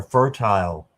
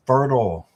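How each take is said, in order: First: "fertile" said FER-tile, second syllable rhyming with mile; British "fertile" with a full long -tile; British pronunciation. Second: American "fertile" rhyming with turtle; American pronunciation. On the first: Offering viewers the other pronunciation of "fertile". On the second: Reading a card aloud, says "fertile" the American way. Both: Shown as a demonstration. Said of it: "wherever you're from".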